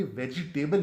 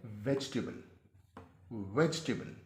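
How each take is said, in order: First: वेजिटेबल with a clear "जि" in the middle; common mispronunciation. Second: वेजिटेबल squeezed to VEJ-tuh-bul; correct pronunciation. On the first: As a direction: sound the extra vowel, ve-ji-TAY-bal. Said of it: "ये वेजिटेबल नहीं है". (वेजिटेबल, "जि" को पूरा बोलते हुए) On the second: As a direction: drop the middle i of वेजिटेबल, "vej-table". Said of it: "असल में ये लफ्ज़ है". (वेजिटेबल को "वेजटेबल" बोलें) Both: Shown as a demonstration.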